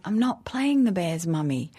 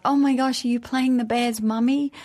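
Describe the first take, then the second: First: Mild firm correction, stress on not; correcting them. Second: Put-on excited kids. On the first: Retold or imitated. Mother correcting her excited children, firm. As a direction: set the kids straight calmly. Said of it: "And I'm like". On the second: Her children asking about her role, excited and high. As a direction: gush like a thrilled child. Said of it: "And then they're like".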